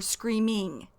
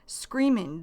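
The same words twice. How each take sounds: First: "screaming" said slowly with its full -ing ending; full form. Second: "Screaming" with a dropped g, ending in -in. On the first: Teacher explaining the short form, "screaming" with full -ing. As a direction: give "screaming" the complete ing sound. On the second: Teacher showing learners the short form, "Screaming" ending in -in. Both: Shown as a demonstration. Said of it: "short for screaming".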